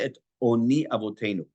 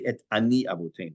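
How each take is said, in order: First: The first vowel of the middle word is 'o'. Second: The first vowel of the middle word is 'a'. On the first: The speaker calls it right. "is almost ninety-nine percent of the time is pronounced like an O" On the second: The speaker calls it wrong. "You do not ever say"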